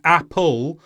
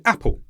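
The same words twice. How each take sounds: First: "apple" with a full second syllable, ap-pol; unweakened vowels. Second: "apple" with a short weak "pl" ending; weakened ending. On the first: Teacher shows what not to say, "apple" unreduced. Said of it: "Instead of saying apple". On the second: Teacher shows natural speech, "apple" with weak last syllable. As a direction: let the end of "apple" reduce. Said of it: "we say apple". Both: Shown as a demonstration.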